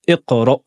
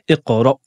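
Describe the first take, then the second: Both takes have the same delivery.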